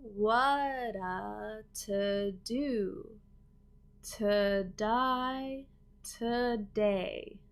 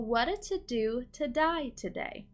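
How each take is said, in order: First: It is said slowly and carefully. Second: It is said at a natural, quicker speed.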